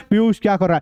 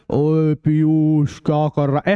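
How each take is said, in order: First: Said in the usual way. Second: Low, slow, muffled call as if underwater. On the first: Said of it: "अभी तो कैसे सुनाई दे रहा है". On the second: Shown as a demonstration. Teacher showing how a voice sounds under water, muffled and slow. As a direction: stretch it out like sound through water. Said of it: "ऐसे सुनाई देगा आपको".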